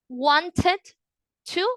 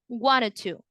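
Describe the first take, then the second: First: The two words are said separately and carefully. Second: The two words run together quickly, without the d. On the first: The speaker calls it wrong. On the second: The speaker calls it right.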